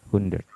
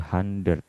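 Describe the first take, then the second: First: The first vowel sounds like 'u'. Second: The first vowel sounds like 'a'. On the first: The speaker calls it right. "Hu ya, hun" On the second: The speaker calls it wrong. "Jadi tidak jadi A, tidak jadi hundred"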